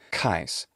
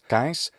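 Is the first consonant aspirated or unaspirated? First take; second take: aspirated; unaspirated. First: The k is aspirated with an English s. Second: The k is unaspirated with a retracted s. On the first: This is the native English pronunciation. "the native English way of saying kais" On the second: This is the classical Latin pronunciation. "the first four letters"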